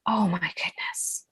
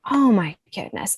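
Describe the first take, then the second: First: Slow breathy whisper of disbelief; awed whisper. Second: Said in the usual way. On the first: Real, not acted. To the host about her course launch, a slow whisper. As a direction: hush it out, stunned by the memory.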